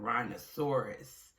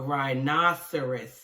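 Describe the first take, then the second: First: The word is said like a dinosaur name. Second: The word has its standard rhinoceros pronunciation. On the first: The speaker calls it wrong. "I called it a rhinoceros, like a dinosaur" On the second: The speaker calls it right. "the correct way to pronounce is a, a rhinoceros"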